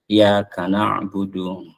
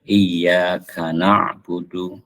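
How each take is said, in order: First: The y sound is short, not doubled. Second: The y sound is held long and doubled. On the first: The speaker calls it wrong. "suka bacanya" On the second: The speaker calls it right. "jadi harus ditasdidkan"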